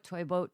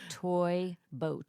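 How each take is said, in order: First: It is said quickly in rapid repetition. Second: It is said slowly with careful articulation. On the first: "Say it three times really fast"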